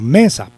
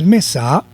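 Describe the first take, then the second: First: The stress is on the first syllable. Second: The stress is on the second syllable. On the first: The speaker calls it right. "el acento lo lleva en la sílaba me" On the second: The speaker calls it wrong. "Si lo llevara en la sílaba sa"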